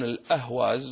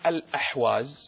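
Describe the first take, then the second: First: The middle consonant is a plain, light h. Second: The middle consonant is a throaty, pharyngeal h. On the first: This is how Persian speakers say the name. "والفرس لا ينطقون الحاء، ينطقونها هاء" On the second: This is the Arabic form of the name. "اسمها العربي الأحواز"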